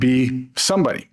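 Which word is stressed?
somebody. The word somebody carries the stress. Become someone who stands out. "Or is it on be somebody?"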